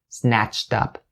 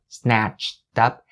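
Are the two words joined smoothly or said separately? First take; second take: joined; separately. First: The words are faster and run smoothly together. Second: The words are slow, with a break between them. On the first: "you can speed it up a little bit" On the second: "at a slow speed separately for each and every single sound"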